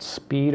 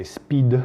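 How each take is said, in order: First: Said in the usual way. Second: "speed" said like the French, louder short "spid"; French accent. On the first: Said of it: "or like my French friends like to say". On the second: Retold or imitated. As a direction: imitate French friends saying "speed" as "spid". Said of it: "like my French friends like to say".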